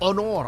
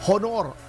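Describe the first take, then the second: First: The first H sound is silent. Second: The first H sound is pronounced. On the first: The speaker calls it right. "Ang H sa Spanish ay silent" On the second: The speaker calls it wrong. "hindi honor"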